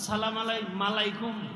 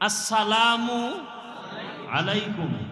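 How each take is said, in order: First: The greeting is slurred, with an extra 'm' sound. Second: Each word of the greeting is said clearly. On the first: The speaker calls it wrong. "মালাইকুম কি?" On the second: The speaker calls it right. "শুদ্ধ করে সালাম দিলে"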